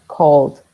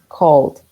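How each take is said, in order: Both takes have the same delivery.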